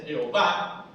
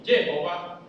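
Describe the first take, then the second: First: Jehová with the accent landing on VÁ; stress on final syllable. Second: Jehová stressed early, with a weak final vá; Jehová mis-stressed, no final accent; wrong stress, early syllable. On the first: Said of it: "y ahí los acentos finales". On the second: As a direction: punch the start of Jehová, let vá drop. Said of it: "no se dice". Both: Shown as a demonstration.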